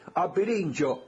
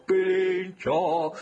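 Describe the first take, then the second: First: Said in the usual way. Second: Drawn-out call. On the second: Pretend. Host hailing the carnival's bandleader, drawn-out call. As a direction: stretch out both vowels of Pirincho, higher.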